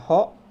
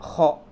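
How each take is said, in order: First: The first sound is a plain breathy h. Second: The first sound is rasped in the throat. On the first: The speaker calls it wrong. "kalau masih ngomongnya ho berarti masih salah" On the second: The speaker calls it right. "harus ditenggorokan nih ngomongnya"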